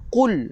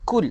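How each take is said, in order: First: It starts with a deep throat q sound. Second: It starts with a plain front k sound. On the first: The speaker calls it right. "ingat eh? Qul" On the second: The speaker calls it wrong. "salah tuan-tuan"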